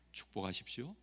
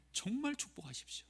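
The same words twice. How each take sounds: First: Lower, softer plea; hushed call to bless; soft exhortation. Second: 정말 lifted high, the rest hushed; a quiet but insistent urging; emphatic soft plea. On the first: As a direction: urge them gently under the breath. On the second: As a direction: lean on 정말 while keeping it soft. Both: Real, not acted. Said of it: "repeated exhortation".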